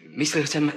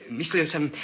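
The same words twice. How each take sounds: The two takes are said the same way.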